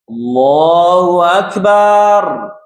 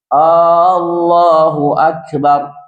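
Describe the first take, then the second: First: The final syllable bar is stretched long. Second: The opening vowel is stretched long. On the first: It turns into a word for a drum. "memanjangkan barnya" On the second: It turns into a question: is God great? "dengan memanjangkan hamzah"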